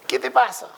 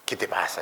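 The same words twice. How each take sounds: First: Much higher, cartoonish question; high mock voice. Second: Lower, softer grumble; gruff Aristotle. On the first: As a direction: squeak out a puzzled question. Acted dialogue of philosophers. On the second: Acted. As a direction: grumble it back down low. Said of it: "le dice Aristóteles".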